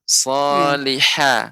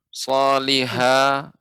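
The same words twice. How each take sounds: First: The final ha sounds light and thin. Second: The final ha sounds heavy and full. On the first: The speaker calls it right. "Seharusnya ha, ya, lebih dikecilkan" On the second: The speaker calls it wrong. "ini masih terdengar suaranya besar"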